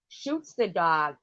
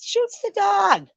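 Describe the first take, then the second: First: Said in the usual way. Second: Outraged disbelief. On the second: Retold or imitated. Ranting to a listener about the dog being shot, high outraged slow cry. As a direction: pitch leaps way up, slow and louder.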